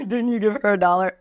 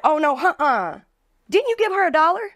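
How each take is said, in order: First: Laughing replay of the quote. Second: High-pitched, offended sass; mock indignant customer. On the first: Retold or imitated. Host laughingly repeating the customer's line, amused. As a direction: laugh while echoing the customer. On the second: Angry customer confronting the bartender over a dollar, high mock outrage. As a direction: play the outraged girl calling her out. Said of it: "she's like".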